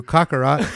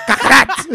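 First: Said in the usual way. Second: High, loud put-on accent; Vegeta impression. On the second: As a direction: shout it in a hammed-up anime rival's accent. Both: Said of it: "I gotta say it in my little accent".

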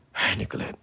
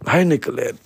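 First: Whispering "Hi, Nicolette." unvoiced and soft; whispered hi. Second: Said in the usual way. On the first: Shown as a demonstration. Greeting Nicolette on the show in a whisper. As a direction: breathe "Hi, Nicolette." as a hushed greeting.

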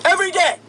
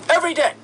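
No difference in how they are said.

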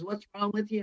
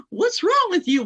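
First: Said in the usual way. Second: Sharp high scolding question; loud high exasperated demand; angry dad. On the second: Retold or imitated. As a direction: bark the question like an upset father. Dad's question at full force.

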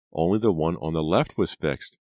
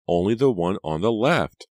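First: Explaining, slightly raised; first, more restrained statement; dawning realization. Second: "left" hit high and loud; higher, louder, landing hard on "left"; emphatic repeat. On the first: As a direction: work it out aloud. Reva explains, then repeats in realization. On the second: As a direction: stress "left" in shocked realization. Reva repeats in horrified realization. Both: Acted.

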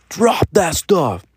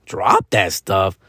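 First: High, slow stern command; imitating the stern dad; dad's order. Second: Low, slow disbelieving question; mock scoffing kid; incredulous echo. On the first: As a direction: order the kid to drop it. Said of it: "And he's just like". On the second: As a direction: repeat it back in disbelief. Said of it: "And I'm like".

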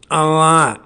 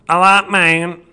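First: Put-on a light take on the older Chappelle voice; the first Chappelle, louder. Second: A light take on today's Chappelle voice; the second Chappelle, louder and higher; current Chappelle voice. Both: Shown as a demonstration. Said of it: "I just gave you both".

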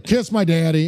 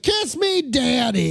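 First: Lightly voiced unwilling winner; reluctant older man. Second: Very high, strained imitation yell; forced yell. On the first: Sixty-year-old winner dodging the required phrase, lightly acted reluctance. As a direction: give the phrase up grudgingly, half-heartedly. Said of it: "simply will not yell". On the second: Older winner giving in to the crowd, high mock yell. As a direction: squeal out the embarrassing phrase. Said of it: "you have to yell".

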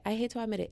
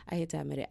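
First: HATE pitched up, reluctant; higher dramatic confession. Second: Said in the usual way. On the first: Shown as a demonstration.

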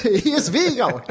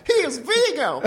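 First: Doting grandparent. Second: Much higher grandma squeak; doting grandparent. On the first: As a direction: play it as the sweet old granny. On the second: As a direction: push the granny voice way up. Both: Acted. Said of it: "That was pretty good, right?".

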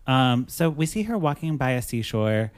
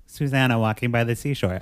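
First: Said in the usual way. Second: Carefully articulated, no marble mouth; clear enunciation. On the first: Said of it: "no marble mouth". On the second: Shown as a demonstration. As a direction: pronounce Susanna and seashore carefully, no mumbling. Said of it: "I can say that, no marble mouth".

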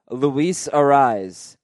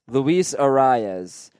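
First: "Arise" as a-RIZE, one vowel glide; slow, deliberate "Arise" without an extra syllable; two-syllable version. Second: "Arias" as a-RYE-ez, second vowel sounded; slow, deliberate "Arias" with an added syllable; three-syllable version. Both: Shown as a demonstration. Host testing co-host's ear, careful pronunciation. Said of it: "Scott thinks that's the same".

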